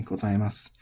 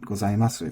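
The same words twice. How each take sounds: First: "gozaimasu" ending on a bare s; silent final u. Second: "gozaimasu" with the last u fully pronounced; final vowel voiced. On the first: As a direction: drop the last vowel of gozaimasu. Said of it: "typically does not have the vowel pronounced". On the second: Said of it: "does not have the vowel pronounced. It's normally not". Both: Shown as a demonstration.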